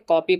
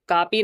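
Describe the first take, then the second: First: The first vowel is a rounded 'aw'. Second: The first vowel is a long open 'aa'. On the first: The speaker calls it right. "बल्कि कॉपी पढ़ा जाएगा क्योंकि ये English का word है" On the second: The speaker calls it wrong. "इस लफ्ज़ को कापी नहीं पढ़ा जाएगा"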